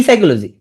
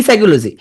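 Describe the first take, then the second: The two takes are said the same way.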